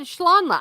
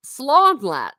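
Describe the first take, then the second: First: Schlonlat with a sh sound at the start; Schlonlat, sh instead of s; old wrong pronunciation. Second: Slonlat with a plain s, no sh sound; Slonlat, crisp s at the start; corrected pronunciation. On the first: Retold or imitated. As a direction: say Schlonlat, opening on sh like German. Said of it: "I said Schlonlat". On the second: Shown as a demonstration. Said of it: "Without the sh".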